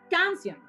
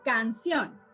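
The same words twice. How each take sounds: First: The stress is on the first syllable. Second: The stress is on the last syllable. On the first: The speaker calls it wrong. "Yo no digo" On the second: The speaker calls it right. "yo digo"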